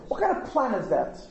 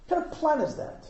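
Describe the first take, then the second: First: Said in the usual way. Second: The repeat pitched higher, incredulous; higher mock disbelief. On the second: Real, not acted. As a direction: scoff at it, pitched up. Repeated mocking question.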